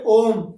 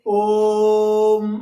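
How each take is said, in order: First: The vowel is said at normal length. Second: The first vowel is drawn out long.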